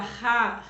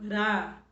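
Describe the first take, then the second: First: The r is a strong, forceful sound. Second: The r is a weak, light tap. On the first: "Para forçar" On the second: "ele fica fraquinho"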